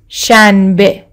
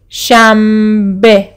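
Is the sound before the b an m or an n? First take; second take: n; m. First: The consonant before b is a clear n. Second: The consonant before b is an m. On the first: "ما این رو شنبه می نویسیم" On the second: "اما شنبه می خونیم. م م"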